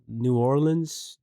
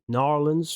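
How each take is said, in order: First: The name is said with all its syllables. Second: The name is squeezed into two short syllables. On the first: "I've heard it's uh, called New Orleans" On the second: "from the locals"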